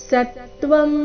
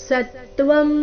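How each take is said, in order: No difference in how they are said.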